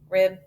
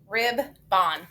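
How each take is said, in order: First: The second syllable has a reduced schwa vowel. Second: The second syllable has a full O vowel. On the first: The speaker calls it right. "We got to schwa that O" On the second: The speaker calls it wrong. "Mm, never heard that"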